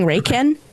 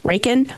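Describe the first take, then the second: First: The last syllable sounds like 'can'. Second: The last syllable sounds like 'can'.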